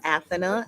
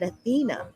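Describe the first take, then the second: First: The name is said the way another person said it. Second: The name is said in the usual English way.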